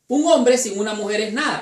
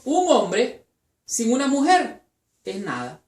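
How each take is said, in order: First: It is said without internal pauses. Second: It is said with internal pauses.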